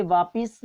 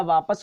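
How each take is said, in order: First: वापिस ending in "pis"; i before s. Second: वापस ending in "pas"; a before s. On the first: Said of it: "वापिस नहीं होता". (वापिस में "पि" पर इ) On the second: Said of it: "वापस होता है". (वापस में "प" बिना इ के) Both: Shown as a demonstration.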